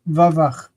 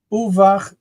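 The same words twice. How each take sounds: First: Vavach starting on a full "va". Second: Uvach starting on an "oo" vowel. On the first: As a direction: say "vavach" with va in place of u. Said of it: "in this case is vavach". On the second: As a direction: say "uvach" with initial u before vach. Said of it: "instead of reading uvach". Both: Shown as a demonstration.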